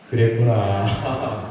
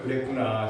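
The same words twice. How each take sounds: First: Slow tender empathy. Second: Said in the usual way. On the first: Shown as a demonstration. Pastor leading the congregation, drawn out and tender. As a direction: stretch it out slowly and gently. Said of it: "시작". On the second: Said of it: "옆 사람 한번 보내볼까요".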